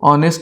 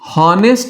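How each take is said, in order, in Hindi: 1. शब्द सीधे एक स्वर से शुरू होता है। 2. शब्द की शुरुआत h की आवाज़ से होती है। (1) "ऑनेस्ट यानी ईमानदार" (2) "ये हॉनेस्ट नहीं होता है"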